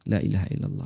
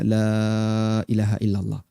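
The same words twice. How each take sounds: First: The vowel in 'la' is kept short. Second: The vowel in 'la' is held long. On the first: "Cuman pendek aja" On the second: "Kita nggak baca"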